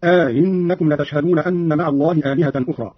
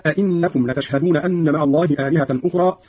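First: أئنكم said "aa-innakum", long first a gliding into i; أئنكم with inserted alif and eased glottal stop; softened second hamza. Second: Said in the usual way. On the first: Shown as a demonstration. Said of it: "بتسهيل الهمزة الثانية مع إدخال ألف".

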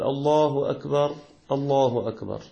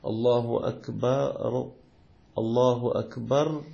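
First: الله أكبر with the راء of أكبر silent, cut off before the next الله; stopped ر demo. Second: Slow الله أكبر joined to the next الله, the ر of أكبر taking a fatha; linked with fatha. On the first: Teacher showing the adhan's first takbir with the راء stopped. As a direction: say أكبر with a dead stop on ر, then a fresh الله. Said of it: "ينبغي عليه أن يسكن، يقول". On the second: Teacher showing how to join the takbirs without dropping the stop. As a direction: run أكبر into الله as akbara-llah. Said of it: "وحين يصلها". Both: Shown as a demonstration.

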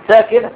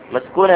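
First: ساكنة said as sakina, the right word; correct form. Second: مسكونة said as the mistaken maskuna; mock the wrong word مسكونة; wrong form mock. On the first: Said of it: "ولكن قل إيه؟ ساكنة". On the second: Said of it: "لا تقل مسكونة". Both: Shown as a demonstration.

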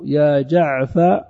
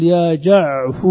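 First: "جعفر" drawn out as "jaʿfa", no r; slow "jaʿfa" for "جعفر", ending open on "a"; last letter dropped. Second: "جعف" drawn out as "jaʿfu"; slow "jaʿfu" for "جعف", ending on "u"; damma moved back. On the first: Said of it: "ويبقى كل شيء بعد ذلك". (نطق "جعفر" بحذف الراء وفتح الفاء) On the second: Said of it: "وتنقل هذه الضمة إلى ما قبل". (نطق "جعف" بضم الفاء مع التمهّل) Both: Shown as a demonstration.

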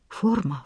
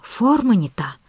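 First: Soft muttered word; muttering. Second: A touch of frantic frustration; frustrated muttering. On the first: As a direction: mutter it under the breath. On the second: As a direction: grumble it in disbelief. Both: Acted. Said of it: "бормотал профессор".

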